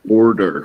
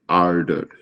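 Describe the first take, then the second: First: The first vowel is a rounded 'aw' sound. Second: The first vowel is an open 'ah' sound. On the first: This is how the word is said in English. The speaker calls it right. "it is alif wow in English. So order" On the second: This is how the word is said in Urdu. The speaker calls it wrong. "we say it with alif. So we say ardor"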